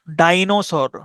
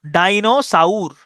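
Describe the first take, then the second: First: Said in the usual way. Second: ডাইনোসাউর drawn out slowly, ending in "sa-ur"; spelling pronunciation. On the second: Shown as a demonstration. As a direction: stretch ডাইনোসাউর to sound every vowel, "dai-no-sa-ur". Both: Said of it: "এভাবে উচ্চারণ করতে পারেন".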